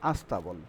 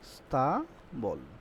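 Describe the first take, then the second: First: An extra 'a' vowel comes before the cluster. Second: The word begins directly with the consonant cluster.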